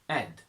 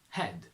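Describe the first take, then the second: First: The H sound is dropped. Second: The H sound is pronounced.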